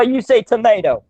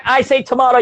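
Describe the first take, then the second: First: TOMATO with a long A, "to-MAY-to"; American-style tomato. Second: TOMATO with a broad AH, "to-MAH-to"; British-style tomato. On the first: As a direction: say tomato as to-MAY-to, lifted and playful. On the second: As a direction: say tomato as to-MAH-to, lifted and playful. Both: Shown as a demonstration. Contrasts two ways of saying tomato.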